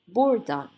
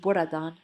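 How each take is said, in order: First: The second 'a' is dropped, sounding like 'burdan'. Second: Every vowel is pronounced, including the second 'a'. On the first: The speaker calls it right. "as if this A doesn't exist" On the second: The speaker calls it wrong. "while saying we never say buradan"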